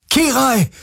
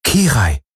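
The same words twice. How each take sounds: First: High, ringing call of a name; calling her through the door in despair; desperate call. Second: Said in the usual way. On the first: A narrator's reading. Galen calls desperately through the locked door, a high ringing cry. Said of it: "rief er".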